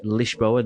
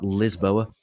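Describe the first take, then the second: First: It is pronounced the Portuguese way. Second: It is pronounced the English way. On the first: The speaker calls it right. "you have to pronounce it in the Portuguese way" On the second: The speaker calls it wrong. "not Lisboa"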